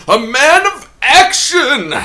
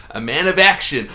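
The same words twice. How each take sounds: First: Booming slow trailer announcer. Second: Said in the usual way. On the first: Pretend. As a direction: belt it like a movie trailer. Hamming the movie tagline.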